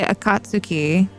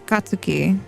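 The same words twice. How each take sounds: First: The u after ts is clearly pronounced. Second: The u after ts is silent. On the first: The speaker calls it wrong. "you wouldn't say" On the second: The speaker calls it right. "You say"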